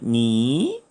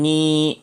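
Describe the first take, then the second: First: The syllable is said with the second tone. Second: The syllable is said with the first tone. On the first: "제2성으로 읽으면 니" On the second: "제1성으로 읽으면 니"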